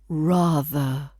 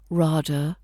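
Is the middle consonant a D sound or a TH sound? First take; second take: TH sound; D sound. First: The middle consonant is a TH sound. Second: The middle consonant is a D sound. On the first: The speaker calls it right. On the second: The speaker calls it wrong.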